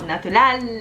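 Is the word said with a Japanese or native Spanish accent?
native Spanish. It is said with a native Spanish accent. The speaker calls it right. "no, natural, así"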